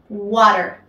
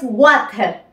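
First: The middle consonant is a soft r-like tap. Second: The middle consonant is a clear t sound. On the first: The speaker calls it right. "Esta T pasa a ser una R" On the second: The speaker calls it wrong. "No es water"

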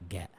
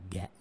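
The two takes are said the same way.

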